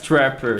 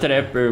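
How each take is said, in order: First: It is said with an English pronunciation. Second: It is said with a Brazilian Portuguese pronunciation. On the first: This is how the word really is. The speaker calls it right. "but it's trapper" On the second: This is how some people in Brazil say it. The speaker calls it wrong. "here in Brazil, some people don't don't say trapper, they say"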